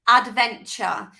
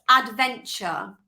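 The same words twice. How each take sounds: No difference in how they are said.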